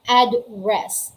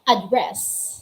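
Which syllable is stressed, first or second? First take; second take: first; second. First: The stress is on the first syllable. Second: The stress is on the second syllable. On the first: It is a noun meaning a location. "Kapag noun po, yung stress, yung diin sa syllable ay nasa first syllable" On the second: It is a verb. "yung stress or emphasis ng syllable ay nasa second syllable"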